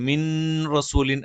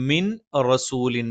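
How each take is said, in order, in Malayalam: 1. n r-ന് മുൻപ് വ്യക്തമായി ഉച്ചരിക്കുന്നു. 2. n r-ന് മുൻപ് വ്യക്തമായി ഉച്ചരിക്കുന്നു.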